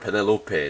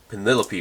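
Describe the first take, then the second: First: It is pronounced the Korean-Japanese way. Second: It is pronounced the usual English way.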